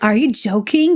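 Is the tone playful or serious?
serious. It sounds serious and offended.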